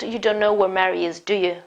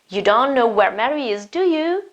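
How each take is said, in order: First: The voice falls on the final tag. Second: The voice rises on the final tag. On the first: The speaker calls it wrong. "It's not" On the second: The speaker calls it right. "my voice goes up again"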